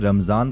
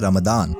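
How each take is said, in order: First: The middle consonant is a z sound. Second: The middle consonant is a d sound. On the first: This is the Urdu form of the word. "रमजान में जी sound आती है" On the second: This is the Arabic form of the word. "अरबी भाषा में रमजान को बोला जाता है रमदान"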